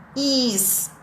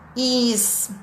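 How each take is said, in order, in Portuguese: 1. A palavra termina com um som de s sibilante. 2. A palavra termina com um som de s sibilante.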